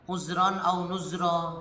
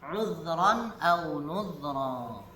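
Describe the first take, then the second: First: The middle consonant is a buzzing z sound. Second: The middle consonant is a soft dh sound. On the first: The speaker calls it wrong. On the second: The speaker calls it right.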